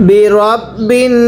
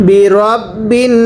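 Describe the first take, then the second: No difference in how they are said.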